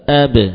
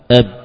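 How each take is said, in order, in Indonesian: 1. Huruf b terakhir dilepas dengan sedikit gema. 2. Huruf b terakhir berhenti mendadak tanpa gema.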